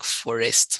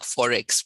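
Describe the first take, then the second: First: The word ends with an 'st' sound. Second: The word ends with a 'ks' sound. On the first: The speaker calls it wrong. "one of the biggest words that um, is mispronounced" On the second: The speaker calls it right. "No, let's check Forex, please"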